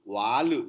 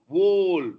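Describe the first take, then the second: First: An extra vowel is added after the final l. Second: The word ends cleanly on the l sound. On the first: The speaker calls it wrong. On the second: The speaker calls it right.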